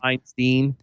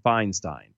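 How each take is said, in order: First: The two syllables have different vowel sounds. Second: Both syllables have the same vowel sound. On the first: The speaker calls it wrong. "the IE at the end were two different sounds" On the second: The speaker calls it right. "I believe it's properly enunciated Feinstein"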